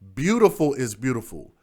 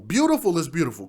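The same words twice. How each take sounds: First: It is spoken slowly and deliberately. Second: It is spoken at a normal pace.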